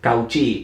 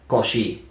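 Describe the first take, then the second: First: It is pronounced letter by letter as Spanish spelling. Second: It is pronounced the French way, not as spelled. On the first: The name is read as it is written. The speaker calls it wrong. "La forma literal es Cauchy" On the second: The name is said as in its language of origin. The speaker calls it right. "pero en realidad se pronuncia Cauchy"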